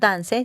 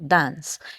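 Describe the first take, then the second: First: The word ends with an added vowel sound. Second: The word ends on a plain s sound. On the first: The speaker calls it wrong. "No decimos dance" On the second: The speaker calls it right. "sino dance"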